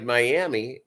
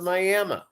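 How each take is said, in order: First: It is pronounced the way the spelling suggests. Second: It is pronounced the way locals say it. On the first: "that's reads like Miami" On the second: "they pronounce it Miami"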